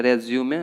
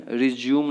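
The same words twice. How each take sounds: First: रिज्यूमे ending in "-may"; रिज्यूमे with the final e sounded; correct pronunciation. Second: रिज्यूम ending on m; रिज्यूम with no final vowel; wrong pronunciation. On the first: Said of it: "ये होता है रिज्यूमे". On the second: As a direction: say रिज्यूम as "ri-zyoom". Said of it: "वो तरीका गलत है". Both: Shown as a demonstration.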